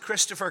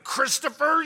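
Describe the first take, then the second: First: The name is said in a relaxed, easy voice. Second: The name is squeezed out through a tight throat. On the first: The child is not in trouble. "If my mom said" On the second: The child is in serious trouble. "with a clenched throat and literally squeezing the vocal cords"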